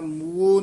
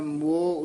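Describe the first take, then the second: First: The word glides from 'oo' into 'o'. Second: The word has a single open 'o' vowel. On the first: The speaker calls it wrong. "ਮੂਓ ਨਹੀਂ ਕਹਿਣਾ" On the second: The speaker calls it right. "ਮੋਹ ਉਚਾਰਨ ਕਰਨਾ ਹੈ"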